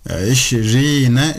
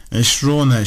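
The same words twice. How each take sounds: First: Eşrine, very slow with long "ii": esh-REEE-ne; correct case ending. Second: Eşrune, slow with long "uu": esh-ROO-ne; wrong case ending. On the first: Teacher showing how we will read it, correct case ending. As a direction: draw out the "ee" in eşrine, syllable by syllable. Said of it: "okuyacağız". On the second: Teacher showing how not to read it, wrong case ending. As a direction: stretch the "oo" in Eşrune. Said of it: "şeklinde değil". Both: Shown as a demonstration.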